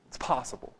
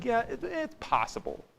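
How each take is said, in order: First: Quiet, low, offhand admission; low-key allowance; understated concession. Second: High, soft, hesitant admission; reluctant, pitched up then falling away; grudging concession. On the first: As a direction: concede it softly under your breath. Conceding an alternative explanation. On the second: Grudgingly conceding a second explanation. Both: Shown as a demonstration.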